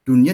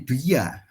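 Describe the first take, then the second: First: The n sound is clearly kept before y. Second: The n sound is dropped before y. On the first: The speaker calls it right. "itu memang dibacanya begitu" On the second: The speaker calls it wrong. "tidak dibaca menjadi duya"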